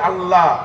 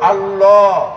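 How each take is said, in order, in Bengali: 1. L টা চিকন ও হালকা করে বলা হয়। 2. L টা ভরাট ও ভারী করে বলা হয়। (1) "আমরা হালকা করে পড়ি" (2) "পৌর করে আল্লাহ শব্দটা হলো"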